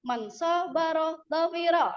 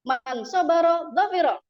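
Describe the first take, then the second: First: The vowel in sabaro is drawn out long. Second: The vowel in sabaro is short. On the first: The speaker calls it wrong. "sabaro itu panjang ya" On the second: The speaker calls it right. "harusnya pendek"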